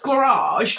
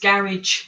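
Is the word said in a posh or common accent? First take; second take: posh; common. First: It is said in a posh English accent. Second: It is said in a common English accent.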